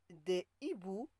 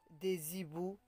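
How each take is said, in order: First: No z sound links des to hiboux. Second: A z sound links des to hiboux. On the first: The speaker calls it right. "On dit" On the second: The speaker calls it wrong. "On ne dit pas"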